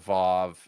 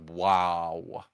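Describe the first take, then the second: First: The letter name begins with a v sound. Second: The letter name begins with a w sound. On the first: "pronounce the letter Vav" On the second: "the super conservative seminarian types who pronounce the letter Vav as wow"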